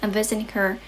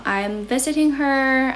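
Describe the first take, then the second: First: Said in the usual way. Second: Slow, emphatic restatement; slow and clear. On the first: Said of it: "You know, I'm visiting her". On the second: Shown as a demonstration. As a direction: spell it out slowly for the viewer.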